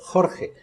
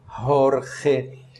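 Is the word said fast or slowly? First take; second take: fast; slowly. First: The word is said quickly in one go. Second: The word is said slowly, sound by sound. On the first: "posso tentar ver se pronuncio rápido" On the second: "Isso é uma forma pausada"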